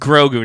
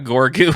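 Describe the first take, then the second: First: The name starts with the sounds 'gro'. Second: The name starts with the sounds 'gor'. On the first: The speaker calls it right. "It's Grogu" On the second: The speaker calls it wrong. "not Gorgu"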